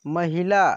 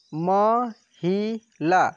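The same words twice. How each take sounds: First: Said in the usual way. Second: महिला stretched very slowly and louder; slow drawn-out word. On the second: Shown as a demonstration. Teacher modelling महिला slowly for pupils. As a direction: drag महिला out slowly, syllable by syllable. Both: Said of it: "ऐसे पढ़ेंगे".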